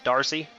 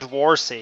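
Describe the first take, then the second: First: It is said with no w sound. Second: It is said with a w sound before r. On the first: The speaker calls it right. "I'm guessing that's how you pronounce it" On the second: The speaker calls it wrong. "It's not Dwarsy, is it? Because the W is after the R"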